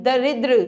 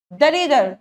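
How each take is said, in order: First: "दरिद्र" ending in a tight dra; joined final r. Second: "दरिद्र" as da-ri-dar; wrong final cluster. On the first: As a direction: join d and r at the end of "दरिद्र". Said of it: "द के नीचे रा". ("दरिद्र" के अंत में जुड़ा द्र) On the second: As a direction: put a vowel before the final r in "दरिद्र". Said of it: "नहीं". ("दरिद्र" को दरिदर जैसा) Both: Shown as a demonstration.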